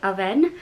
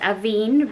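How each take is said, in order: First: The word is said in a French-style way. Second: The word is said in an English-style way. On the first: The speaker calls it right. "French they say it Avène" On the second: The speaker calls it wrong. "I thought it was Avène"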